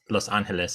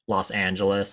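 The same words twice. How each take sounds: First: The name is said with a Spanish accent. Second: The name is said with an English accent. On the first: The speaker calls it right. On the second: The speaker calls it wrong.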